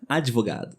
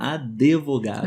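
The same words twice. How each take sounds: First: No vowel is heard after the d. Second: An extra vowel is heard after the d. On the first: The speaker calls it right. "D mudo, ou seja" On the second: The speaker calls it wrong. "Advogado como se fosse D-E"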